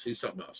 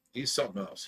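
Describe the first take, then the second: First: Much softer, breathy whispered repeat; whispered aside. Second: Said in the usual way. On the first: Real, not acted. Muttering to the stream about the ex-friend, in a whisper.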